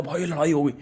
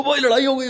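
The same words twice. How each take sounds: First: Said in the usual way. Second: High, breathless excited blurt; a hyped-up kid announcing a fight. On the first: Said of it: "मैंने कहा". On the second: Retold or imitated. Calling his cousin after the fight, high excited blurt. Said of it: "ये वो तरीके से".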